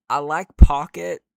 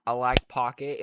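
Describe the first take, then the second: First: Very loud emphatic claim. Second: Said in the usual way. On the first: Real, not acted. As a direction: say it loud and firm.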